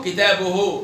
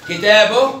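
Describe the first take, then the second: First: Slow كتابه as "kitabuhu"; damma on haa. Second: Slow كتابه as "kitaboh"; sukun on haa. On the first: Teacher gives an example, كتابه ending in -uhu. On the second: Teacher gives an example, كتابه ending in -oh. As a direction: end كتابه on h. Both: Shown as a demonstration. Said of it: "بالهاء".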